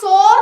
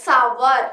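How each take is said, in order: First: The vowel is a single 'or' sound. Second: The vowel is a gliding 'ower' sound. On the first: The speaker calls it wrong. "സോർ എന്നല്ല നമ്മൾ പറയേണ്ടത്" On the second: The speaker calls it right. "സവർ എന്നാണ് pronounce ചെയ്യുക"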